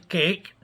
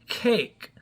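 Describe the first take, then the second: First: The first sound has no puff of air. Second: The first sound has a strong puff of air. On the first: The speaker calls it wrong. "Not the cake" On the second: The speaker calls it right. "the aspirated, the air coming out"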